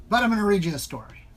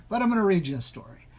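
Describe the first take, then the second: No difference in how they are said.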